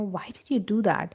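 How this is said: It is said in a blunt, intimidating tone. The asker seems to be accusing. The speaker calls it wrong. "it can seem very intimidating when I say that that way"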